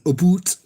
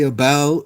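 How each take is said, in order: First: The vowel sounds like the one in 'boot'. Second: The vowel sounds like the one in 'out'. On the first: The speaker calls it wrong. "I don't say hoose and aboot" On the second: The speaker calls it right. "I know how to say about"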